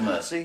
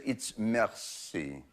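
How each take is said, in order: First: Merci said the English way, like "mersy"; an Englishman's clumsy merci; merci with a flat English r; English-style merci. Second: Merci said slow and low in French, "mair-SEE"; a snooty waiter's proper merci; French correction. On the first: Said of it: "I said". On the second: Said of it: "He said". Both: Retold or imitated.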